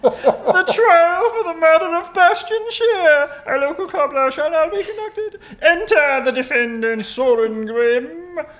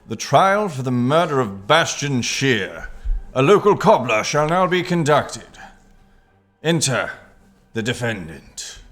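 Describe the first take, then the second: First: It is said in a deliberately awful voice. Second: It is said in a normal announcer voice.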